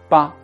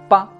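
First: The syllable is produced heavily with the outer lips. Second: The syllable is produced lightly with the inner lips. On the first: The speaker calls it wrong. "如果外唇用力就会发成八八" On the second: The speaker calls it right. "更加灵活更加轻巧的发音方式是内唇"

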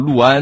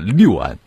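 First: The first syllable is pronounced lu. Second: The first syllable is pronounced liu. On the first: This is the traditional local reading. The speaker calls it right. "陆安应该保留旧时候的读音" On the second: This is the reading in the newest dictionaries. The speaker calls it wrong. "很别扭的六安"

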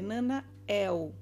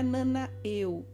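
First: The name ends in an open e and clear l. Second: The name ends in a vowel-like u sound. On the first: The speaker calls it right. "com esse E agudo e com L no final" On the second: The speaker calls it wrong. "ele não é Nanaeu"

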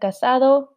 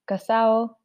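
First: The d in the ending is pronounced. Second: The d is dropped, Dominican style.

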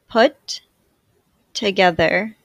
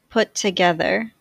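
First: The words are said with a break between them. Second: The words are joined smoothly with no break. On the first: "I will say the words with a space in between" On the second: "in a more fluid way to demonstrate linking"

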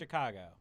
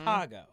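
First: The C and the A sound softer. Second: The C and the A sound harder. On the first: This is how outsiders say it. "They just say Chicago" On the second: This is how locals say it. "how we say the C and the A a little bit harder"

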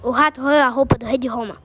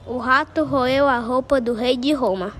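First: It is said quickly. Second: It is said at a slower, normal pace.

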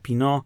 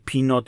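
First: The final t is silent. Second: The final t is pronounced. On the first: The speaker calls it right. "Nagminnie staramy się wymawiać wszystkie nieme litery" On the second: The speaker calls it wrong. "i tak powstają gama i pinot"

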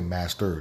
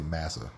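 First: The t and r sounds are fully pronounced. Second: The t and r sounds are dropped. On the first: "they don't say master" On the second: "they say massa"

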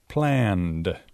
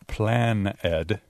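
First: The ending joins the word as one syllable. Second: The ending is said as a separate syllable. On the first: The speaker calls it right. "pero planned" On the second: The speaker calls it wrong. "No plan-ed"

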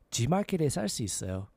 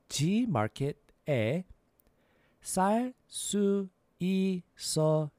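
First: The sentence is said at a quicker, natural pace. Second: The sentence is said at a slower, careful pace.

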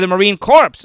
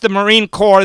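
First: Corps is said with the final ps sound. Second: Corps is said without the final ps sound. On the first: The speaker calls it wrong. "he pronounced ... the Marine Corps. Also, that was inexcusable" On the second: The speaker calls it right. "he pronounced the Marine Corps"

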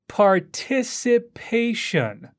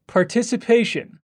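First: The word is spoken slowly. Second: The word is spoken faster. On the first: "I'll say it slowly first" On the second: "let's speed up a little"

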